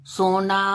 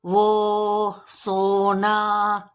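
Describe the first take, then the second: First: Said in the usual way. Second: वो and सोना with lips rounded, o stretched very slowly; drawn-out rounded o. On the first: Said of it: "जैसे वो, सोना". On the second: Shown as a demonstration. Teacher to children, stretching the ओ slowly. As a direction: hold the ओ in सोना long and round. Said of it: "करके देखिए".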